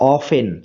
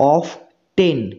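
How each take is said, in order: First: The t sound in the middle is silent. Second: The t sound in the middle is pronounced. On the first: The speaker calls it right. "এই টি এর উচ্চারণটা করা যাবে না" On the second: The speaker calls it wrong. "অফ টেন এইভাবে উচ্চারণ করলে উচ্চারণটা ভুল হবে"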